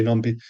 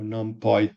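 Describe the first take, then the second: First: Numpy with the ending like "pee"; preferred pronunciation. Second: NumPy with the ending rhyming with "pie"; alternative pronunciation. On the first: Teacher gives his own way to say the library name, preferred pronunciation. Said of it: "I would say numpy". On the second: Teacher offers another way to say the library name, alternative pronunciation. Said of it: "however you ... I would say numpy". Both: Shown as a demonstration.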